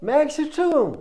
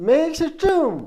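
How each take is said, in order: The two takes are said the same way.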